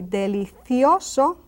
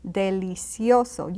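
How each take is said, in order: First: Delicioso with TH in "cio"; Castilian TH. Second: Delicioso with an S sound in "cio". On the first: Teacher offering the other delicioso, with TH. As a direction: put a TH in the middle of delicioso. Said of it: "Can you notice the difference?". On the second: Teacher modelling delicioso with the S sound. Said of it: "You can also say delicioso". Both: Shown as a demonstration.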